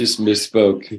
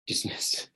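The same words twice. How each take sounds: First: Slow teasing repeat of misspoke; slow sarcastic echo of an excuse; mock repeat. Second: Breathy whispered echo under a laugh; teasing whispered repeat. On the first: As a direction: drag out misspoke mockingly. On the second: Real, not acted. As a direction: whisper it to yourself, amused.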